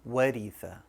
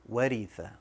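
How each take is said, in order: No difference in how they are said.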